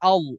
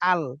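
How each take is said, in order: First: The L is pronounced heavy and thick. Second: The L is pronounced light and thin. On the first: The speaker calls it right. "ধরতেই হবে মোটা কইরা" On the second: The speaker calls it wrong. "আমি ধরলাম কিভাবে"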